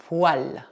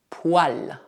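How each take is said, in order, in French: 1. La voyelle après le son w est 'ah'. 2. La voyelle après le son w est 'ah'.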